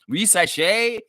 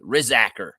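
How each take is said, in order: First: The surname is said in a fancy, refined way. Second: The surname is said in a plain Southern way. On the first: It sounds pretentious and upper-class. "That sounds highfalutin to me" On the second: It is how a local would naturally say it. "pronounce it like a, a a guy who got raised down in Tallahassee, Florida, would pronounce it"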